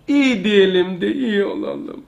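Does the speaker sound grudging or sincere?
sincere. It is said in a sincere, believing tone. The speaker truly believes it. The speaker calls it right. "Uslup şu"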